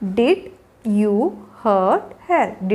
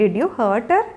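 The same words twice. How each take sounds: First: Slow and low, long gaps between words. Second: Said in the usual way. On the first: Shown as a demonstration. Teacher modelling a question to a child for learners, word by word. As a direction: say each word alone, then pause.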